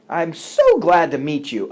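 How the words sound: The pitch jumps up and steps down. It sounds genuine. The speaker calls it right. "we have what we call the jump up and step down approach to language"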